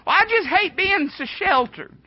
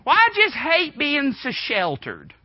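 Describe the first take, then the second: First: High mock whine of a sheltered teen; whiny teenager. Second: Mock whiny teen, higher and slower; whiny teenager. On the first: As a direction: sulk it out, pitched way up. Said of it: "that's all you hear". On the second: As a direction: whine it like a sulky fourteen-year-old. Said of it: "what you hear all the time".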